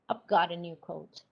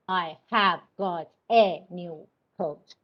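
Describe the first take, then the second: First: 'I have' is contracted to one syllable. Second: 'I have' is said as two full words. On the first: The speaker calls it right. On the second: The speaker calls it wrong. "It's not"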